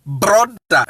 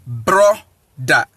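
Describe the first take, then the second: First: Said in the usual way. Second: "brother" split as bro, pause, da; syllable-by-syllable pronunciation. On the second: Shown as a demonstration. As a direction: break "brother" into two lower, separate beats. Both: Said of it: "Now, let us".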